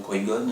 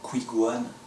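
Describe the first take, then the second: First: The name ends with the short sound 'Gon'. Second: The name ends with the longer sound 'Gohan'. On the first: This is the name as it should be said. The speaker calls it right. "au lieu de dire" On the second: This is a flawed dubbing of the name. The speaker calls it wrong. "le personnage disait euh, Qui-Gohan, un truc comme ça"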